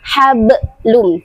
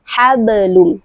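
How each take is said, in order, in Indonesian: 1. Huruf b ditekan kuat, dengan pantulan setelahnya. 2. Huruf b ringan, hanya dengan sedikit pantulan. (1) "Jangan sampai seperti kedengaran ada huruf hamzah yang mengikuti di belakangnya. Hablum, tidak" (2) "Jadi pengucapannya ringan saja sampai cukup sampai di makhrajnya"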